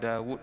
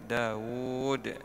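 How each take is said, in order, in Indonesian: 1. Vokal ditahan satu ketukan. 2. Vokal ditahan dua ketukan. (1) "Kita tak baca Daud, Daud satu harakat" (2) "tapi Daud dua harakat itu eh"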